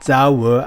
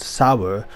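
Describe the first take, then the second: First: It is said with a German pronunciation. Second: It is said with an American pronunciation. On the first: "the German gun manufacturer Sauer" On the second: "Americans pronounce ... as Sauer"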